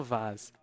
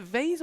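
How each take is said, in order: First: "vase" with a broad AH, like VAHZ; British "vase" vowel. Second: "vase" with a long AY vowel; rhymes with "face". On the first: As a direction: say "vase" to rhyme with cars. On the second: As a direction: say "vase" as VAYZ. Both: Shown as a demonstration. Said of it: "I say vase".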